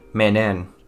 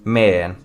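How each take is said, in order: First: The word is said in full, with three syllables. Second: The word is cut short to one syllable. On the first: "which would be menen" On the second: "take one and the middle and out to say, make it men"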